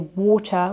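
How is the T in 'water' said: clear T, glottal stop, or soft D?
clear T. The middle T is a clear T sound. The speaker calls it right. "In British English, we say water with the T sound"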